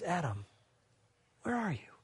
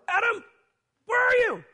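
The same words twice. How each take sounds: First: It is said in a gentle, caring tone. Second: It is said in an angry, scolding tone. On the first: The speaker wants to restore the listener. The speaker calls it right. "I believe what God said was" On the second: The speaker is scolding and wants to punish. The speaker calls it wrong. "he did like probably I would have done"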